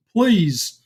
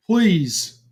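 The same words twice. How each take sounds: The two takes are said the same way.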